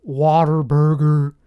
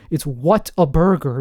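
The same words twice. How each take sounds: First: Whataburger said slowly as one word, Texan way; Whataburger pronounced. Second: What a Burger split into three words, stress on a; What a Burger pronounced. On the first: Naming the Texas burger chain, Whataburger as one word. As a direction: draw out Whataburger as locals say it. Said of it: "however you say it". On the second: Insisting on his own pronunciation, What a Burger as three words. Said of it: "That's how I'm saying it". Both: Shown as a demonstration.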